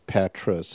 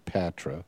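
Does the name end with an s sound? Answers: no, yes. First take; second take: yes; no. First: The name ends with an s sound. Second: The name ends in a vowel, with no s. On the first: The speaker calls it right. "but it's Patras" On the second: The speaker calls it wrong. "I always say Patra"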